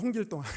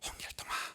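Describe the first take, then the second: First: The name is said in a loud voice. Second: The name is said in a very quiet voice. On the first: "큰 소리로" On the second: "아주 작은 목소리로"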